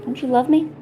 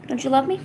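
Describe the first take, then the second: First: Talking to a dog. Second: High pleading pet voice; talking to a dog. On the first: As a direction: plead again with a pet. Pleading with pet, louder. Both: Real, not acted.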